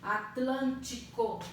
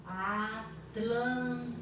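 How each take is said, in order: First: Said in the usual way. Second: Atlântico stretched into slow syllables, At-lân-ti-co. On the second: Shown as a demonstration. Teacher to pupils, syllabifying slowly. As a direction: sound out Atlântico slowly, one syllable at a time. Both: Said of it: "Estou separando em sílabas".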